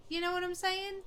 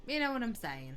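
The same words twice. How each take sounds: First: High, rising go at a Scottish accent; attempted Scottish accent. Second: Falling line in a tentative Irish accent; attempted Irish accent. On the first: Gamer showing the route to Irish, attempted Scottish accent. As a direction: try it in Scottish, lifting the pitch high. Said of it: "I have to go through Scottish to get there". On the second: Gamer showing where Scottish leads, attempted Irish accent. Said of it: "I can't intentionally do an Irish accent". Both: Shown as a demonstration.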